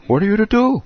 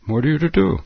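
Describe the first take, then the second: First: High, louder exasperated cry; dramatic cry of helplessness; rhetorical cry. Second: Said in the usual way. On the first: Shown as a demonstration. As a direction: throw up your hands on it.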